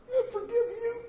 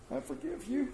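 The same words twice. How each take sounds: First: Much higher, half laughing, half crying; tearful forgiveness. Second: Hushed, gentle I forgive you with a lift; soft forgiveness. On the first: Farmer forgives the neighbor at last, teary and laughing. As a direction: let the voice crack into a teary laugh. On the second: Preacher voicing a farmer forgiving the tractor scratch, hushed. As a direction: breathe it out softly, higher. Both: Acted.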